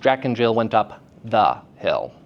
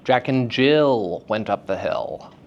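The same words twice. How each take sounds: First: Short breaks set apart the stressed syllable. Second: A stretched vowel marks the stressed syllable. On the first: "separating the stressed syllable from its surrounding syllables" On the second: "I just elongated the vowel sound"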